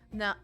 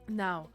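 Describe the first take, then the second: First: It is said in the speaker's ordinary voice. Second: It is said in a put-on deep voice. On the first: The speaker calls it wrong. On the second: The speaker calls it right.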